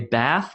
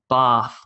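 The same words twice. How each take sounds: First: It is said in an American accent. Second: It is said in an Australian accent. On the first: "Americans would say bath" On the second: "but I'll do Australian"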